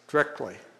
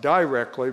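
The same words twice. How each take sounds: First: It is said with a local rural dialect pronunciation. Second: It is said with a standard pronunciation. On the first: "but it's directly" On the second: "It's not directly"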